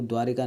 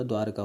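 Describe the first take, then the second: First: द्वारिका said with an i after व, as the wrong form; teacher voices the common mistake द्वारिका, with an i; wrong spelling said. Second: द्वारका said with no i after व, short and clean; teacher gives the right द्वारका, without the i; correct spelling said. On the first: Teacher shows students the wrong द्वारिका, said plainly. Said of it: "द्वारिका नहीं होता". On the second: Teacher corrects students to द्वारका, said plainly. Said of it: "द्वारका होता है". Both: Shown as a demonstration.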